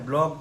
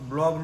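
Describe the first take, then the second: First: The word starts with a 'bl' cluster. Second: The word starts with a 'bl' cluster.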